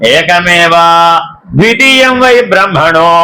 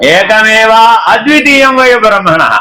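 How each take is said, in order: First: There is a break after ekameva before dvitiyam. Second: The words run together with no break after ekameva. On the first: There are two separate realities. The speaker calls it wrong. "విడగొట్టేశారనుకోండి" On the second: There is one reality without a second. The speaker calls it right. "కలిపి చదివితే"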